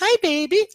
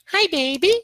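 First: It is said in a soft, warm voice. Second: It is said in a harsh, roaring voice.

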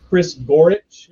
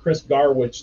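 First: The surname is pronounced as Gorich. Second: The surname is pronounced as Garwich. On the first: The speaker calls it right. "is how you pronounce it" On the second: The speaker calls it wrong. "I mispronounced it early on. So I always call him Chris Garwich now"

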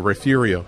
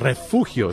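First: It is said with an English-style pronunciation. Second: It is said with a Spanish pronunciation. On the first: This is the old local ranch usage. "That's how the cowboys referred to it long ago" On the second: This is the original form of the word. "But it's a Spanish word"

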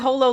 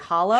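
First: The word sounds like holo, as in hologram. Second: The word sounds like the word hollow. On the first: The speaker calls it right. "You can always correct me on my pronunciation" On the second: The speaker calls it wrong. "What did I say? Hollow?"

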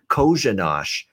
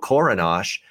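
First: The name has an SH sound after the first vowel. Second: The name has an R sound after the first vowel. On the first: The speaker calls it right. "The first R in his name is an SH sound as well" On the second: The speaker calls it wrong. "I said on the show Korinash"

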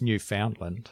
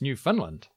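First: It is said in the non-local, outsider way. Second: It is said the way local people say it. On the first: The speaker calls it wrong. "apparently I've been saying it wrong" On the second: The speaker calls it right. "when you're from Newfoundland, it's Newfoundland"

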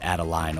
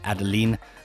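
First: The name is pronounced the American way. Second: The name is pronounced the French way. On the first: The speaker calls it wrong. "my fellow Americans, ... not Adeline, or however you say it" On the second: The speaker calls it right. "it's Adeline"

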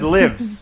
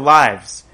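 First: The vowel is short, rhyming with gives. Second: The vowel is long, rhyming with hives. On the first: The speaker calls it wrong. "It said lives" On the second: The speaker calls it right. "instead of lives"

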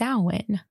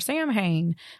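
First: It is pronounced the Gaelic way. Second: It is read as English spelling suggests. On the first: The speaker calls it right. "It's Samhain because it's Gaelic" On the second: The speaker calls it wrong. "everyone is like Samhain or Samhain, but that's wrong"

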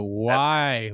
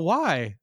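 First: It sounds frustrated and exasperated. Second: It sounds curious and inquisitive. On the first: The speaker is annoyed at having to deal with it. "Pulling your damn hair out" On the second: The speaker genuinely wants to understand the cause. "All curious and inquisitive"

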